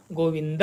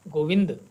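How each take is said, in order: First: गोविंद with the final द fully sounded; Sanskrit pronunciation. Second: गोविंद with the final द clipped, Hindi style; Hindi pronunciation. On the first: Teacher shows the Sanskrit way to say गोविंद, full final syllable. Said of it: "Sanskrit में उच्चारित करते हैं तो". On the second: Teacher shows the Hindi way to say गोविंद, clipped ending. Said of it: "Hindi में इसका प्रयोग करते हैं तो हम कहते हैं". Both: Shown as a demonstration.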